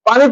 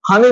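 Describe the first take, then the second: First: The word begins with a p sound. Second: The word begins with an h sound. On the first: This is the standard form. The speaker calls it right. "শুদ্ধ করে সঠিক করে পানি পড়ছো" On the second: This is the regional form. The speaker calls it wrong. "নোয়াখালীর মানুষ তুমি হানি বলছো"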